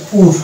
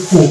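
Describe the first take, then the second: First: পুর closed with an R; American, R sounded. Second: পু ending on an open vowel; British, silent R. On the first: Teacher contrasts American English poor, R sounded. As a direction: say পুর in full with final R. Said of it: "American ইংলিশের ক্ষেত্রে এটা পুরো উচ্চারণ হয়". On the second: Teacher shows British English poor, silent R. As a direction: say পু with the final R dropped. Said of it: "আর কে বাদ দিলে উচ্চারণ আসবে". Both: Shown as a demonstration.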